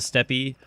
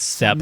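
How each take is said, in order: First: The word ends with an added 'ee' vowel. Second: The word ends on the 'p' consonant. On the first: The speaker calls it wrong. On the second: The speaker calls it right.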